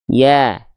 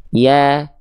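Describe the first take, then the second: First: The vowel sounds thin and bright, with a slight smile. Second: The vowel sounds thin and bright, with a slight smile.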